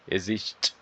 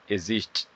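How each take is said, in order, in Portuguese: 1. A última sílaba é engolida e quase não se ouve. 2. A última sílaba é engolida e quase não se ouve.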